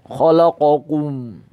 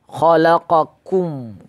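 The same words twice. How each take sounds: First: The final kum sounds thick and heavy. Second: The final kum sounds thin and light. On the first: The speaker calls it wrong. "menebalkannya ... Salah ya" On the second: The speaker calls it right.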